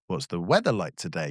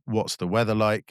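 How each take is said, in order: First: The voice rises at the end. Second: It is said flat and robotic.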